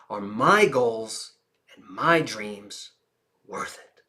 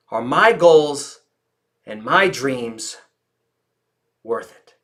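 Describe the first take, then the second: First: Much softer, slow, ending in a whisper; hushed intimate question; quiet, slow. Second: Slow, fading, weighted question; slow reflective question. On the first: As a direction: drop to a near whisper. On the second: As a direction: let each phrase hang. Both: Shown as a demonstration. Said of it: "Listen to the volume of my voice".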